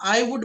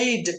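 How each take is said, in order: First: Two full words, 'I would', are said. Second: One contracted syllable, 'I'd', is said. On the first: It sounds long and less natural. The speaker calls it wrong. "లెందీగా చెప్పేదానికి కాకుండా" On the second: It sounds easy and professional. The speaker calls it right. "ఐ వుడ్ బదులుగా ఐడ్ చెప్తే చాలా ఈజీగా ఉంటుందండి"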